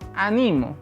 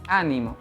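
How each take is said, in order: First: The stress is on the second syllable. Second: The stress is on the first syllable. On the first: It is the present-tense form meaning I encourage. "si le cambio el sonido en el segundo, en la segunda sílaba" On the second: It is a noun meaning cheer or encouragement. "Si yo el acento lo coloco en la primera sílaba"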